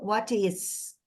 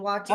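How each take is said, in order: First: The S in 'is' is a hissing S. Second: The S in 'is' is a buzzing Z. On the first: The speaker calls it wrong. "Antes estava muito what is" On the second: The speaker calls it right. "mais Z nesses is aí"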